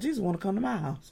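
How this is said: The voice sounds reluctant and dismayed. We dread that Jesus is coming. The speaker calls it wrong. "Whereas we sitting there saying, oh Lord"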